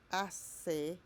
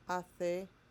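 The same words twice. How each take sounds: First: The c sounds like English 's'. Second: The c sounds like English 'th'. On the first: "like with S" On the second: "sound like the, the, the when it comes before E and I"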